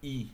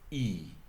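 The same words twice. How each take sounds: First: The vowel is short and quick. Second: The vowel is drawn out and long. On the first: "au lieu de dire I comme le premier" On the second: "nous sommes sur un son qui est lent"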